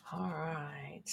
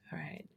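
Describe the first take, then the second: First: Said in the usual way. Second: Breathy whispered aside. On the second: Real, not acted. Host murmuring to herself, whispered. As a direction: drop to a whisper. Repeats all right, then whispers.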